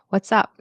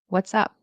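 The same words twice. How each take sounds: No difference in how they are said.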